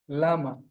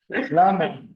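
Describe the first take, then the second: First: Said in the usual way. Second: Lama stressed on the first syllable; Hebrew lama. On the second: Shown as a demonstration. Teacher modelling the Hebrew word, LA-ma.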